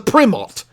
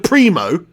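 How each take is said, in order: First: The final T is clearly pronounced. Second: The final T is not pronounced. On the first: "or is it the Primot?" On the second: "with a silent T"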